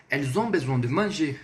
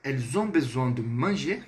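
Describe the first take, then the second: First: Falling tune through "manger"; French statement with a closing fall on "manger"; statement intonation. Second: Rising question on "manger"; French yes-no question made by tune alone; question intonation. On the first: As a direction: state it, letting "manger" drop at the end. Statement answering the question take. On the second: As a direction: ask it by lifting the pitch at the end of "manger". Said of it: "entonação". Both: Shown as a demonstration.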